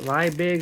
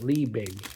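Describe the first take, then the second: First: "Liebig" with its first syllable rhyming with "my"; Liebig as LIE-big. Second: "Liebig" with its first syllable rhyming with "me"; Liebig as LEE-big. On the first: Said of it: "Is that how you pronounce it?". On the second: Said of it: "or is it Liebig?". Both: Shown as a demonstration.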